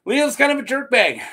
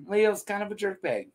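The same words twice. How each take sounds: First: Higher and louder, kind stressed; emphatic jab. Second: Said in the usual way. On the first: Shown as a demonstration. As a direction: punch out Leo's kind of a jerkbag.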